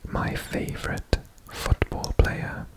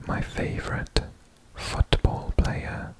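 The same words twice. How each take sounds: The two takes are said the same way.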